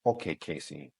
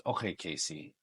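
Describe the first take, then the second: First: Deeper, softer casting director impression. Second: Lightly lowered casting director voice; a first, understated go at the director. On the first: Casting director addressing a newcomer on camera, low imitation. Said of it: "it was more like this". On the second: Retold or imitated. Casting director calling in an auditioner, first mild imitation. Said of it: "the casting director ... and he goes".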